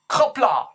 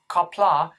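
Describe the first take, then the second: First: It starts with a harsher, deeper K sound. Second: It starts with a plain K sound. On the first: The speaker calls it right. "It's much harder than just a K" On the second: The speaker calls it wrong. "don't say K, don't say Qapla'"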